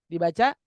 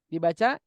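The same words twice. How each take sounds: Both takes have the same delivery.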